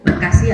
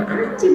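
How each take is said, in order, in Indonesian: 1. Diucapkan dengan jelas, tanpa cadel atau manja. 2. Diucapkan dengan suara cadel dan manja seperti bayi.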